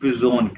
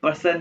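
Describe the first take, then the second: First: It is pronounced the German way, ending in -zohn. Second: It is pronounced like the English word person. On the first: The speaker calls it right. "इसको पिजोन कहना है" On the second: The speaker calls it wrong. "इसको पर्सन नहीं कहना"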